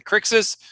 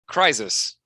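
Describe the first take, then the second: First: The middle consonant sounds like ks. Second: The middle consonant sounds like z. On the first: "pronounced as an X" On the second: "or a Z"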